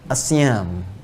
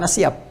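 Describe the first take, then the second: First: The word ends with an m sound. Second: The word ends with a p sound. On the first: The speaker calls it right. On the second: The speaker calls it wrong.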